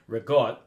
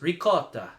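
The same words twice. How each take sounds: First: It is said with an Italian American accent. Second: It is said with an Italian accent. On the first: "there's the Italian American way" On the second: "which is the the way the Italians would say it"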